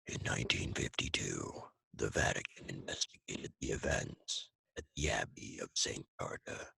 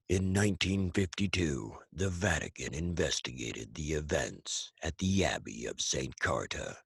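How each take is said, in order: First: It is spoken in a full whisper. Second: It is spoken in a full, gravelly voice.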